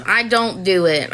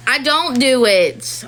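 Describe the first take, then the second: First: Said in the usual way. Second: Slow, leaning on don't; "don't" drawn out and stressed. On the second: Real, not acted. Mom answering strangers, stressing don't.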